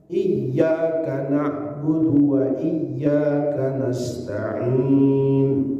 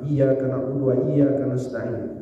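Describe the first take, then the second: First: The y sound in iyyaka is held doubled. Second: The y sound in iyyaka is short and single. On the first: The speaker calls it right. "sekian tasdid itu tidak boleh tinggal" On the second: The speaker calls it wrong. "Tidak pakai tasdid"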